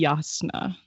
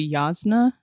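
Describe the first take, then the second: First: The middle consonant is an S sound. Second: The middle consonant is a Z sound. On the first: The speaker calls it right. "I believe it's actually supposed to be S sound. It's supposed to be" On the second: The speaker calls it wrong. "most of the time these days I say"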